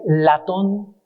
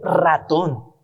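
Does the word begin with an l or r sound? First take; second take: l; r. First: The word begins with an l sound. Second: The word begins with an r sound. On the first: The speaker calls it wrong. "a veces dicen latón ... no pueden pronunciar ¿qué? La R" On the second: The speaker calls it right. "La R, ratón"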